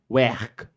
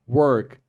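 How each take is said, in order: First: It is said in a Liverpool accent. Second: It is said in a standard accent.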